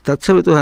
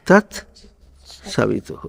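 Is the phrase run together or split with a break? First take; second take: run together; split. First: The words are rushed together without a break. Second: The words are unhurried with a break between them. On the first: The speaker calls it wrong. "అనకూడదు" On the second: The speaker calls it right. "ఏమనాలి?"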